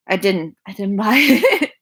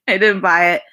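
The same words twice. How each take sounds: First: Giggling through the words; sheepish laughing admission; laughing denial. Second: Didn't punched louder; firm denial leaning on didn't; stress on didn't. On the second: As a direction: hit didn't firmly. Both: Real, not acted. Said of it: "I did not purchase this".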